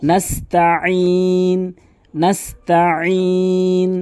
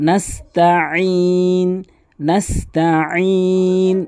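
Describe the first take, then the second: No difference in how they are said.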